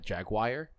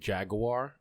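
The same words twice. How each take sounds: First: The last syllable sounds like 'wire'. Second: The last syllable sounds like 'war'. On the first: The speaker calls it wrong. "and not Jaguar" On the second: The speaker calls it right. "I'm glad that you said Jaguar"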